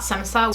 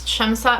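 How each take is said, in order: First: The name begins with an 's' sound. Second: The name begins with a 'sh' sound. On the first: The speaker calls it wrong. "not Semsa. So I've been saying that wrong" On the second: The speaker calls it right. "I think it's Shemsa"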